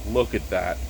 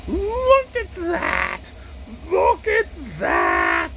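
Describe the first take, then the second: First: Said in the usual way. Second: Very high, drawn-out, loud exclamation; slow, straining shout of mock wonder; hammed-up awe. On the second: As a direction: stretch each word in over-the-top amazement. Repeats admiration of beer, hammed up.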